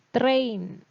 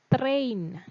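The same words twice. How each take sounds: The two takes are said the same way.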